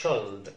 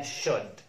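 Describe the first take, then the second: First: Should mispronounced as "shold"; should with its silent L wrongly voiced; wrongly sounded L. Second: Should said "shud", no L; should straight from vowel to D; correct silent L. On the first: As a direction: say should with an audible L before D. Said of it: "ما نقولش should". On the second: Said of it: "اسمها should". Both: Shown as a demonstration.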